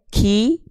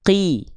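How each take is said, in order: First: The consonant releases with a puff of breath. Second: The consonant releases with no puff of breath. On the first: The speaker calls it wrong. "Nggak boleh ki" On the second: The speaker calls it right. "tapi ki"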